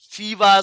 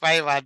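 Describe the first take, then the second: First: The first syllable sounds like 'fee'. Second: The first syllable sounds like 'five'. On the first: The speaker calls it wrong. "Some call it fever" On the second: The speaker calls it right. "but I believe it's Fiverr"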